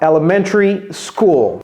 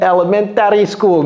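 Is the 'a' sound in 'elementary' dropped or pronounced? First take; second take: dropped; pronounced. First: The vowel before the last syllable is dropped entirely. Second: The vowel before the last syllable is clearly pronounced. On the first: The speaker calls it right. "Comme s'il n'y avait pas de A là-bas" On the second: The speaker calls it wrong. "Je n'ai pas dit elementary school"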